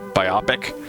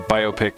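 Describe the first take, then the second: First: The 'bio' is said as in 'biography'. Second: The 'bio' is said the usual way.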